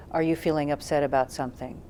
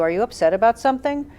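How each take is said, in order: First: "Are you feeling upset about something?" softer, dropping in pitch on "something"; relaxed, curious, coming down at the end; falling end tone. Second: "Are you upset about something?" with the pitch going up at the end; rising end tone. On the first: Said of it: "if we come down at the end". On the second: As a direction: ask "something" with an upward question lilt. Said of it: "we come up at the end of the question". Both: Shown as a demonstration.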